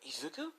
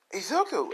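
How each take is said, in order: First: Soft, high, rising query; hushed high-pitched questioning surprise; surprised question. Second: Loud, high exclamation; excited high shout of welcome; surprised greeting. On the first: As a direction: ask the name in quiet disbelief. Both jump up questioning. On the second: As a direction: cry out the name on seeing him. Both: Acted.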